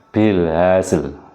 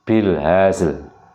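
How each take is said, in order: No difference in how they are said.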